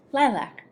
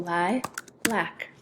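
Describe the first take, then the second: First: Said in the usual way. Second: "lilac" as li, pause, lac; split by syllable. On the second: Shown as a demonstration. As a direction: break "lilac" into two syllables. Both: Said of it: "open syllable".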